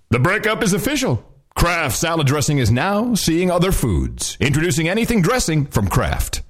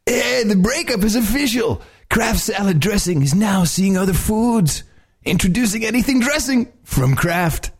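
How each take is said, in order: First: It is said in a big announcer voice. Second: It is said in an extreme surfer-dude voice.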